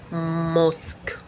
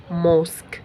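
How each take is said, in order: First: "موسك" stretched very slowly; sounded out. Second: Said in the usual way. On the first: Shown as a demonstration. Teacher sounding out "موسك" for learners, drawn out very slowly. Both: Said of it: "ننطق كده نستهجى".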